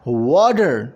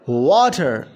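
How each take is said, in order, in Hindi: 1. बीच के t को d जैसा बोला जाता है। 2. बीच के t को साफ़ t की तरह बोला जाता है। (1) "अमेरिकन उसे डी के साउंड में पढ़ते हैं" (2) "डी का साउंड वो नहीं निकालते, तो वो पढ़ते हैं वाटर"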